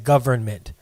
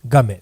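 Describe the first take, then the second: First: The word is said in full, every syllable clear. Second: The word is clipped to a short 'guhment'. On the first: The institution is behaving properly toward people. "when they act right, they're the government" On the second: The institution is not behaving properly toward people. "just G G U H M E N"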